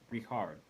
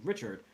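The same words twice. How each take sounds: First: The name is said unlike the American way. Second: The name is said the usual American way. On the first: It is how the player's name is actually pronounced. The speaker calls it right. "I think it's pronounced Richard" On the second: It is the reading an American would assume. The speaker calls it wrong. "as a, an American, you see that name and you think Richard"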